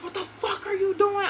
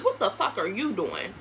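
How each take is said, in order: First: High, indignant mock demand; imitated angry demand. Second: Retold angry retort. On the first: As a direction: act out his outraged challenge at the door. Acting out Christopher at the door. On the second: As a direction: lower comeback, throwing his question back. Her retort to his same question.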